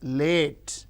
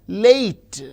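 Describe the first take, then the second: First: The vowel is a long pure A. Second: The vowel glides as a diphthong. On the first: "as a long A" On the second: "if you say a word like late"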